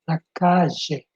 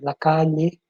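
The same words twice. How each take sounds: First: It is said in an Argentine accent. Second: It is said in a Bolivian accent. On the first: "Em Argentina se diz la calle" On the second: "em Bolívia se diz la calle, é como se fosse L L"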